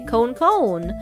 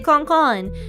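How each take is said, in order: First: It is said with an American-style long vowel. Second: It is said with a Japanese-style short vowel. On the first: "I pronounce it a more American way and say cone cone" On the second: "I say kon kon"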